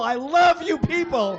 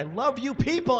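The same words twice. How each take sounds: First: High, loud cry of love, LOVE punched; gushing shout. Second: High-pitched burst of adoration; gushing to the crowd. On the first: Performer to the audience, shouted gushing. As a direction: yell your adoration, leaning on LOVE. Same line, escalated to the crowd. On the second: Performer to the audience, gushing. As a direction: gush it at a much higher pitch. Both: Real, not acted.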